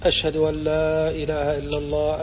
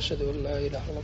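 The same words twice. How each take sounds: First: The phrase is said in a raised, loud voice. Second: The phrase is said in a low, quiet voice. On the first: "ثم يرفع الصوت" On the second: "بصوت منخفض"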